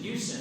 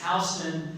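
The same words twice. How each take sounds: First: The first syllable sounds like 'hughes'. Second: The first syllable sounds like 'house'. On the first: The speaker calls it wrong. "they kept saying Houston" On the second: The speaker calls it right. "you don't live in a Hughes, you live in a house"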